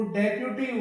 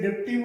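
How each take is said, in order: First: "डेप्यूटी" in three syllables, "dep-yu-tee"; correct deputy pronunciation. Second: "डिप्टी" in two syllables, "dip-tee"; wrong deputy pronunciation. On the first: Teacher modelling the right form, "डेप्यूटी" as dep-yu-tee. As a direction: say "डेप्यूटी" with e and a yu glide. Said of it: "इसका सही जो pronunciation". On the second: Teacher showing the mistake to students, "डिप्टी" as dip-tee. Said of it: "सही नहीं है". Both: Shown as a demonstration.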